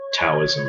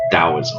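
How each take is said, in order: First: The word begins with a T sound. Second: The word begins with a D sound. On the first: The speaker calls it wrong. "It's not" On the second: The speaker calls it right. "The T is pronounced more like a D"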